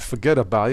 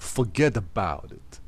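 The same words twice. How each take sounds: First: It is said plainly, without strong feeling. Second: It is said with strong, lively feeling. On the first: The speaker calls it wrong. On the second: The speaker calls it right.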